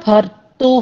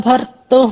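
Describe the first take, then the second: The two takes are said the same way.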